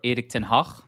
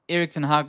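First: The name is said with native-language pronunciation. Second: The name is said with anglicized pronunciation.

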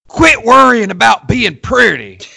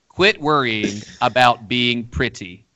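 First: It is said in an exaggerated put-on voice. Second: It is said in a plain everyday voice. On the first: It imitates how coaches say it. "it's always said in this voice" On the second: It gives the plain message behind it.

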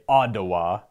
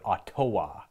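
First: It has a Canadian accent, the t like a d. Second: The t is pronounced as a crisp t.

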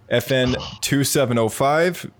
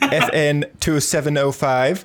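First: It is said in the speaker's normal voice. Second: It is said in a Captain Phasma voice.

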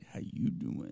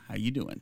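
First: It is said as a Joey impression. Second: It is said in his normal voice.

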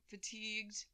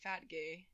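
First: It is said as 'fa-teegd', the standard way. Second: It is said as two syllables, 'fat gay'. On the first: The speaker calls it right. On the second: The speaker calls it wrong.

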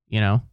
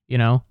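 Both takes have the same delivery.

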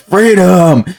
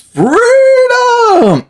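First: It is screamed like the film's heroic lead. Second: It is screamed like an eighties hairband singer.

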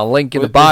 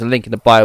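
First: It is spoken in a Southern US accent. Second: It is spoken in a neutral accent. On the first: "very Texan. Yeah, very Southern" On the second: "I'm gonna ditch the accent"

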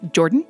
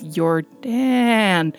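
First: The name sounds like the English name Jordan. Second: The second vowel is stretched out and emphasized. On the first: "as in the Canadian or American version of it" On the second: "really emphasizing the double A there"

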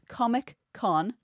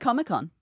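First: It is said as two separate words. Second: It is run together as one word. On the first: The speaker calls it right. "It's Comic-Con" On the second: The speaker calls it wrong. "not a single word Comic-Con"

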